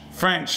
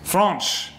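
First: Said in the usual way. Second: French said as "Fronch", with a mock French vowel; bad French accent. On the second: Host fumbling at naming the French, bad French accent on French. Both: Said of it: "I'm rubbish at accents".

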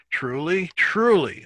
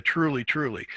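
First: Second truly much higher and louder than the first; rising emphatic truly, truly; emphatic repetition. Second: Said in the usual way. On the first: Shown as a demonstration. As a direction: build from truly to a punched TRULY. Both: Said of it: "it's the second emphatic".

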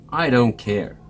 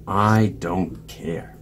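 First: Said in the usual way. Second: Slow, resigned sigh of a line. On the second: A narrator's reading. Bear refuses Mouse once more, sighing. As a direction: sigh it out slowly. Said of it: "Bear only sighed and said".

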